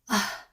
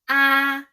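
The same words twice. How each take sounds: First: The syllable is short and light. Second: The pitch stays high and level. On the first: "And plus one"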